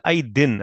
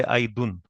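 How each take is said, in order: First: "aidin" ending in a clear -in; "aidin", final vowel i, not u; ends in -in. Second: "aidun" ending in -un; "aidun", final vowel u, not i; ends in -un. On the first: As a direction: say "aidin" with an i in the last syllable. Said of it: "And I said aidin". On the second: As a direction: say "aidun" with a u in the last syllable. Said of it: "I didn't say aidun". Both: Shown as a demonstration.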